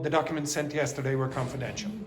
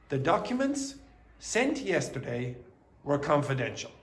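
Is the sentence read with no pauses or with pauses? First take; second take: no pauses; pauses. First: The sentence runs on without pauses. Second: Short pauses break up the sentence. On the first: The speaker calls it wrong. "Do not go" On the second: The speaker calls it right. "what I mean is this. Pause here and here"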